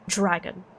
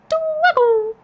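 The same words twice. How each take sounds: First: It is said in an ordinary, everyday way. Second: It is said the way 'croissant' is said. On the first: "I was saying dragon the one time" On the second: "in the same way that you say croissant"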